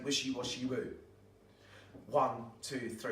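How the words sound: There is a pause before the counting starts. Children may shout the words early and lose unity. The speaker calls it wrong. "don't pause after you said the magic words and before you're saying the one"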